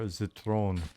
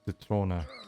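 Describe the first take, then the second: First: The word ends without an extra vowel sound. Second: The word ends with an extra vowel sound. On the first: The speaker calls it wrong. "I asked for Zitron" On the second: The speaker calls it right. "she just straight up corrected my German"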